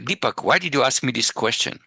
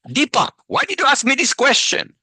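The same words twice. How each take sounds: First: It is said in a friendly, relaxed tone. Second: It is said in a harsh, angry tone. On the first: A genuine, curious question. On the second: An accusation or challenge.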